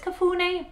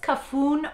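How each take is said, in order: First: The name ends with a pronounced final vowel. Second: The name ends without a final vowel sound. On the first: "It does have an accent at the end, so I believe it's Kafune" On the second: "I think it's Kafun or Kafune"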